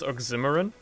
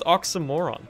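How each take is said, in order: First: The ending is not said like 'moron'. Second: The ending is said like 'moron'. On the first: The speaker calls it wrong. "I thought it was pronounced oxymoron because my fucking English teacher pronounced it like that" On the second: The speaker calls it right. "it's just pronounced oxymoron"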